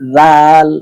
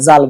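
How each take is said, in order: First: The first consonant is a th sound, tongue between teeth. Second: The first consonant is a plain z sound. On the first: The speaker calls it right. "দুই দাঁতের মাঝখানে জিহ্বা আসবে" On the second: The speaker calls it wrong. "জাল না, এরকম না"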